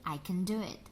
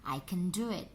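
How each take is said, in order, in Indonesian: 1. 'Can' diucapkan lemah dengan vokal tereduksi. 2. 'Can' diucapkan lemah dengan vokal tereduksi.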